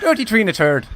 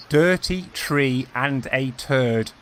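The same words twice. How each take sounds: First: Irish "Dirty tree and a turd" rattled off fast, higher and louder; quick punchline take in Irish; quick Irish accent. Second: Irish "Dirty tree and a turd" spelled out very slowly; slow teaching take of the Irish phrase; slow Irish accent demo. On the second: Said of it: "how to do that in an Irish accent". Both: Shown as a demonstration.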